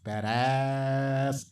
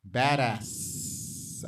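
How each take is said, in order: First: The final s sound is short and ordinary. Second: The final s sound is drawn out long. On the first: It is the ordinary word. "perhaps it's supposed to be pronounced badass" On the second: It follows the title's written spelling. "I say it like that because there are five S's"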